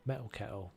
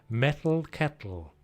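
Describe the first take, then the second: First: Said in a relaxed southern accent, consonants softened. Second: Said carefully, with each consonant crisply enunciated. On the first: "So that's a southern accent right there for you" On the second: "I can do it when I try"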